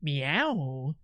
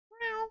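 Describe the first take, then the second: First: It is a sultry, seductive streamer-style meow. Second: It sounds just like a real cat meowing.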